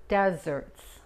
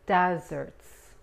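Both takes have the same delivery.

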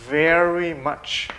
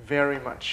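First: Very slow, each sound drawn out; slow model reading. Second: Said in the usual way. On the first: Shown as a demonstration. Teacher drawing out "very much" slowly so pupils copy. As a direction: stretch "very much" out slowly for the class. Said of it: "teacher models slowly". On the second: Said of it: "quicker repeat".

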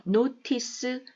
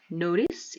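First: "Notice" with a crisp T; "Notice" with the T fully sounded; clear T pronunciation. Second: American flapped T in "notice"; North American pronunciation. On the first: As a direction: say "Notice" as NO-TIS, Korean-style final "seu". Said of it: "notice 이렇게 발음 많이 됩니다". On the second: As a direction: say "notice" as NO-ris. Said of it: "물론 북미권 발음입니다". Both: Shown as a demonstration.

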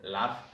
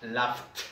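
First: Said in the usual way. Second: "laughed" ending in a crisp t after f; final T. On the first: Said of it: "La única diferencia es". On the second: Shown as a demonstration. Teacher contrasting with laugh, "laughed" with a final t sound. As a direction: add a released t to finish "laughed". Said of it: "La única diferencia es entre esta y esta".

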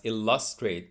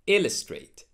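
First: ILLUSTRATE as "il-LUS-trate"; misplaced stress on illustrate. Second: ILLUSTRATE as "IL-uh-strate"; first-syllable stress on illustrate. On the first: Retold or imitated. Teacher copying friends' mistake, illustrate stressed on LUS. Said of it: "I'm afraid that's wrong". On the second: Shown as a demonstration. Teacher modelling illustrate for learners, IL stressed. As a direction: punch IL in "illustrate", weak middle. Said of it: "put the stress on the first syllable".

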